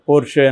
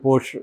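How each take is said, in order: First: Said with an r, ending in an 'e' sound. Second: Said with an r, ending on the 'sh' sound. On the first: "మామూలుగా పోర్ష్ పోర్షే అని కూడా పిలుస్తుంటారు" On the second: "మామూలుగా పోర్ష్ పోర్షే అని కూడా పిలుస్తుంటారు"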